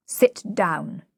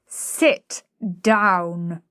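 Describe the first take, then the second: First: Short, firm order; peremptory. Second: Drawn-out, forceful command; thundering. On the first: Higgins ordering the flower girl, peremptory. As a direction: command it, no argument allowed. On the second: Higgins thundering at the flower girl, forceful. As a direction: thunder each word at her. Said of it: "thundering at her". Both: A narrator's reading.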